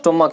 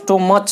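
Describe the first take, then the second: First: The word ends with a k sound. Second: The word ends with a ch sound. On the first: The speaker calls it right. "इसका उच्चारण क होगा" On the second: The speaker calls it wrong. "तो ये स्टोमच नहीं होता है"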